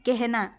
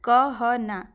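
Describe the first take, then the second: First: The first vowel sounds like an 'e'. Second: The first vowel sounds like a plain 'a'. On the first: This is how the word is actually spoken. "लेकिन हम बोल क्या रहे हैं" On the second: This is how the word is spelled. "लिखा क्या गया है कि कहना"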